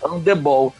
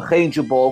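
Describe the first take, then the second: First: The word starts without an H sound. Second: The word starts with an H sound.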